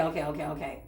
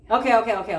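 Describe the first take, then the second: First: Lower, much softer okays; resigned quiet okays. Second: Louder, rapid eager okays; frantic okays. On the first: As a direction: give in under your breath. Same okays repeated, dropped low. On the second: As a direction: agree in a loud rush. Retold frantic agreement, then quiet repeat. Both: Retold or imitated.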